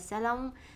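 The word is said the Vietnamese way. "Tiếng Việt mình hay gọi là salon"

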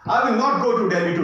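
It is said in a forceful way.

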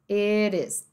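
The T is a soft flap, American style. "no inglês americano"

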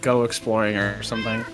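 The voice sounds sad and downbeat. The speaker calls it wrong.

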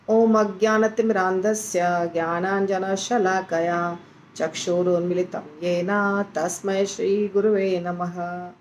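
It is recited quickly with the words run together.

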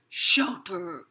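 The word is growled in a monster voice. "You can say it like a monster"

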